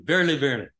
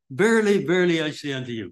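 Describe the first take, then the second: First: Said in the usual way. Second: "Verily" rung out high and loud, then rushed; preacher hammers home "Verily" to congregation, emphatic; emphatic repetition. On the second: Shown as a demonstration. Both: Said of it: "That's an emphasis".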